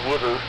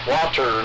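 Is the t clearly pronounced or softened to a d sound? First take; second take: softened; pronounced. First: The t is softened into a d sound. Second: The t is pronounced clearly and crisply. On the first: The speaker calls it wrong. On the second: The speaker calls it right. "you had to enunciate"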